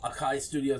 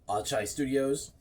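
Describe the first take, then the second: First: The name's middle consonant is a k sound. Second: The name's middle consonant is a ch sound. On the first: The speaker calls it wrong. "not Akai Studios" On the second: The speaker calls it right. "Is like Chai Tea"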